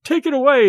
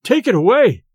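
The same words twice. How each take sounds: First: Much higher, louder panicked scream; rising terror. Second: Loud, higher panicked shout; frantic terror, first cry; terrified cry. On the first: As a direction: escalate the terror on take. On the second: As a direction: cry out as if something's choking you. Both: A narrator's reading. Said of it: "as if a prey to the most awful terror".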